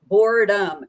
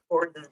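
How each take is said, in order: First: "boredom" louder, as a full "BORE-dum"; self-correct "boredom" with both syllables sounded; corrected pronunciation. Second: "boredom" swallowed into "bord'n", ending in n; slurred slip. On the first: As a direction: hit "boredom" clearly, closing on the m. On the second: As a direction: run "boredom" together as "BORD-n". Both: Real, not acted. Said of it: "Can I talk today?".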